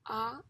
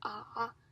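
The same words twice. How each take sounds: First: It is said with a rising pitch. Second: It is said with a dipping pitch. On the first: "is the second tone" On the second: "is the third tone"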